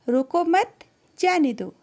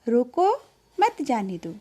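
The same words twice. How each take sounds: First: There is a pause right after 'mat'. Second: There is a pause right after 'roko'.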